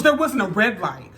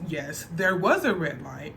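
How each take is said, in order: First: Louder, sharp, indignant protest; indignant denial. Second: Calm correction. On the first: Boyfriend snaps at the cop, louder and indignant. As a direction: throw the denial back at him, a bit loud. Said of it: "He goes". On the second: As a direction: settle it calmly, no heat. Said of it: "The cop says". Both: Retold or imitated.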